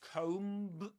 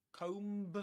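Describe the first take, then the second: The two takes are said the same way.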